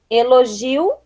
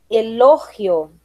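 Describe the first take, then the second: First: Said in the usual way. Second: "elogio" slowly, stressed LO, g as h; Spanish pronunciation. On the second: Shown as a demonstration. Teacher reading the list, "elogio" as Spanish e-LO-hio. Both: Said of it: "diferença entre as palavras heterotônicas".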